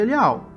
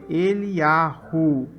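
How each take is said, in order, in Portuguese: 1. O nome é dito sem som de h. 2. O nome é dito com som de h. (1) "tem que tirar esse, esse, esse H daqui" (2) "com a letra... ela tem som... Olha o som"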